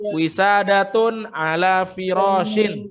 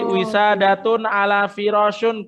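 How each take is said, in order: First: The last word ends with an -in sound. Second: The last word ends with an -un sound. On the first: The speaker calls it right. "harus kasro" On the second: The speaker calls it wrong. "kurang tepat"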